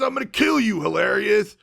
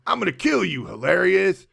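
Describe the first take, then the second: First: Much higher, louder mock battle scream; hammed-up screaming villain; screaming charge. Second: Higher menacing threat, not yet screaming; lightly voiced villain threat; mock villain threat. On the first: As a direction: charge in roaring the threat. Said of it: "does one of those screaming charges". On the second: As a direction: growl it like a movie villain. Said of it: "And he goes".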